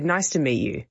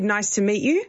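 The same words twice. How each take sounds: First: "Nice to meet you" falling on "you"; downward inflection. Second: Rising at the end, sounding unsure; "Nice to meet you" rising on "you"; upward inflection. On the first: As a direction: settle "you" down with conviction. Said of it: "Whereas if I said". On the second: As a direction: let "you" lift up like a question. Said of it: "I don't really sound like I mean it". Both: Shown as a demonstration.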